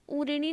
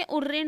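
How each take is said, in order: First: "उऋणी" ending in long ee, u-ri-nee; wrong ni ending. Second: "उऋण" ending on the n, u-rin; correct ending. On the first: Teacher quoting the error to students, mispronounced. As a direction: add an ee to the end of "उऋणी". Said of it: "उऋणी ना होके". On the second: Teacher correcting the word, pronounced properly. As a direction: finish "उऋण" on n without ee. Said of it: "उऋण होता है". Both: Shown as a demonstration.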